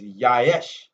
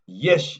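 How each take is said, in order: First: The word begins with an open 'yah' sound. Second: The word begins with a short 'yeh' sound. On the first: "but pronounced properly is Yaesh, Y A Y S H" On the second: "they tell you that uh, uh, Yesh is the word"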